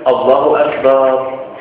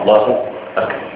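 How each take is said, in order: First: The vowel after b in akbar is drawn out. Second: No vowel is drawn out. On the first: The speaker calls it wrong. "لا يصح أن يمد باء أكبر" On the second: The speaker calls it right. "الصحيح الوقوف على ما ورد عن النبي صلى الله عليه وسلم"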